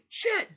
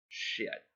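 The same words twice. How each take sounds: First: It sounds sharp and shocked. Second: It sounds flat and resigned.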